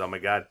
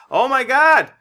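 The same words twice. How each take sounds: First: Said in the usual way. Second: Loud, high cry of Oh my God!; loud high Oh my God! exclamation; wrong shout first. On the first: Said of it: "no, he doesn't say". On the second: Retold or imitated. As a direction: yell Oh my God! high and loud, then retract it. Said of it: "no, he doesn't say, "Oh my God".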